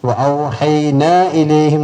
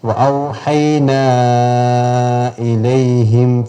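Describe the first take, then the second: First: The long vowel before the glottal stop is short. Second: The long vowel before the glottal stop is stretched. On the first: The speaker calls it wrong. "എന്ന് ഓതാൻ പാടില്ല" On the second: The speaker calls it right. "അഞ്ചോ ആറോ അക്ഷരത്തിന്റെ നീളം നീട്ടണം"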